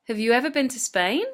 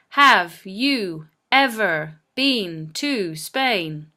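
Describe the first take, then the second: First: The words are linked, with small words weakened. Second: Each word is said separately with full form. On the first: The speaker calls it right. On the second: The speaker calls it wrong.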